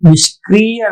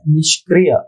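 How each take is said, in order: First: The i vowel is long. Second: The i vowel is short. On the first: The speaker calls it wrong. "निष्क्रिय नहीं है" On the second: The speaker calls it right. "छोटी की मात्रा"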